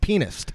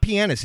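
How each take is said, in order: First: The word begins with a sound like 'penis'. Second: The word does not begin like 'penis'. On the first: The speaker calls it right. "I know it sounds weird, because it's like penis" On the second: The speaker calls it wrong. "It's not pianist"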